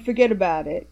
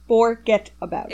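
First: The syllables are run together, Italian-American style. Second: Every syllable is said clearly and separately. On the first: "we're not even going Italian" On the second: "every syllable being said"

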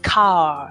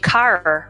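First: The final r is dropped, non-rhotic style. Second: The final r is pronounced, rhotic style.

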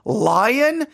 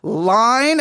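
First: The vowel is drawn out, sounding like 'lion'. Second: The vowel is short, a single clear syllable. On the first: The speaker calls it wrong. "my Texas accent's coming out there" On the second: The speaker calls it right. "Okay, all right, there"

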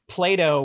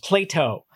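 First: The T is soft and relaxed. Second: The T is crisp and over-enunciated.

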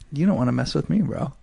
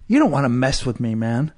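First: It is said quietly with a smile. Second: It is said loudly and aggressively.

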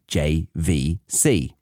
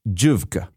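First: Each letter is said separately as J-V-C. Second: The letters are read together as one word. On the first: The speaker calls it right. "the well-known Japanese electronics brand" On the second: The speaker calls it wrong. "would mistakenly abbreviate everyday technology and brand names, pronouncing them exactly as they are written"

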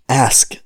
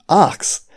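First: The s sound comes before the k sound. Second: The k sound comes before the s sound. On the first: This is the form now considered standard. "the reason that it's now pronounced ask" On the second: This is the older regional form of the word. "which is the way that I pronounce it, as in ax"

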